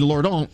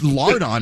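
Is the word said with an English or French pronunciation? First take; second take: French; English. First: The word has a French pronunciation. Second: The word has an English pronunciation. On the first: "in French" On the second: "lardon is much more fun to say"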